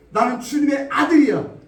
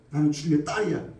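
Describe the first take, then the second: First: 아들이야 cried out high and loud; shouted declaration. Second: Said in the usual way. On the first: Acted. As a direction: proclaim 아들이야 boldly. (아들이야를 힘차게 외치는 믿음의 선포) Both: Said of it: "믿음의 말을 하라는 거예요".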